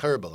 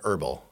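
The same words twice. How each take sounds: First: The word starts with an H sound. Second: The word starts without an H sound. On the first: This is a British way of saying it. "That's very like herbal. It's very British" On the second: This is the everyday American way. "we say herbal"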